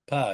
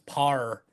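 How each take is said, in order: First: The name ends in an open vowel, no R. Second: The name ends with an added R sound. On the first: The speaker calls it right. "there's no W's or extra R's" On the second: The speaker calls it wrong. "you're putting an R at the end"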